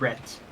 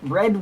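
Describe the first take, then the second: First: The word ends in a voiceless t sound. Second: The word ends in a voiced d sound. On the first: "you would pronounce it like Brett" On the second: "bread would still be with a D"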